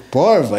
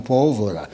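First: The word is said with two syllables. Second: The word is said with three syllables. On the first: It reflects the local old paulista accent. "Esse sotaque nosso, do porva" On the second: It is the standard form of the word. "e não pólvora"

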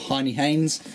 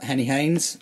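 First: The first syllable sounds like "high". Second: The first syllable sounds like "hen".

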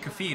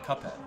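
First: The middle sounds like an F sound. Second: The middle sounds like P then H.

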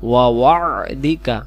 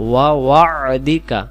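The two takes are said the same way.

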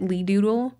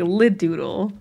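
First: The first syllable sounds like 'lee'. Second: The first syllable sounds like 'lid'. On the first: The speaker calls it wrong. "Correct me if I'm wrong about any pronunciations" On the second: The speaker calls it right. "Like, like lid"

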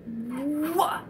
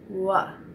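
First: It is said heavily with a puff of built-up air. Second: It is said lightly without any built-up air. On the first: The speaker calls it wrong. "way too heavy" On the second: The speaker calls it right. "Let's try it light"

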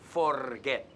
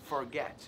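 First: The r sound is strong and rolled. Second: The r sound is soft and weak. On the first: The speaker calls it wrong. "no es forget. No. La R no lo usamos" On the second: The speaker calls it right. "Mucho más suave"

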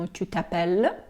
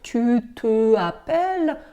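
First: The pronoun vowel is dropped and joined to the verb. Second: The pronoun vowel is kept, said as separate words. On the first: The speaker calls it right. "тому ми скорочуємо" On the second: The speaker calls it wrong. "окремо, це було б"

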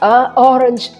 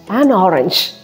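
First: Two vowels meet with no linking sound. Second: An n sound links the two vowels. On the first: The speaker calls it wrong. "That sound is very difficult to produce" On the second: The speaker calls it right. "we are relaxed"

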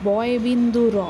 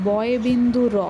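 The two takes are said the same way.

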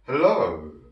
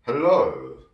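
Both takes have the same delivery.

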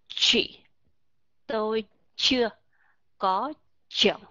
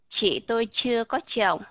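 First: The ch sounds are said heavier and stronger. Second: The ch sounds are said in a plain way.

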